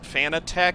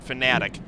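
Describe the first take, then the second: First: The last syllable sounds like 'tech'. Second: The last syllable sounds like 'tick'. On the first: It follows how the name is spelled. The speaker calls it wrong. "a lot of people pronounce it Fanatec because it's how it's spelled" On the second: It follows how the company says the name. The speaker calls it right. "the company pronounces it Fanatic"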